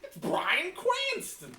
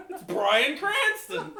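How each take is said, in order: First: Slow, high starstruck repeat; excited. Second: Slow, high, laughing exclamation; excited. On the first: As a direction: draw it out in awe. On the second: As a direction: gasp it out starstruck. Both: Retold or imitated.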